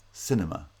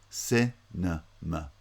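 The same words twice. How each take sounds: First: Said in the usual way. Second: Cinema very slowly in three separate pieces, ci... nuh... muh; syllable by syllable. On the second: Shown as a demonstration. Teacher showing vowel reduction, Cinema slowly syllable by syllable. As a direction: break Cinema up, reducing the last two vowels. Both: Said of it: "second and third syllables both have vowel reduction".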